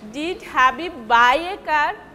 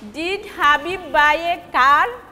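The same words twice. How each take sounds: First: The stress is on buy. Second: The stress is on car.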